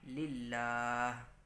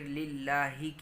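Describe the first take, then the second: First: The word ends on a consonant with no vowel. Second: The word ends with a final vowel sound. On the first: "हम पढ़ेंगे लिल्लाह" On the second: "लिल्लाही की जगह"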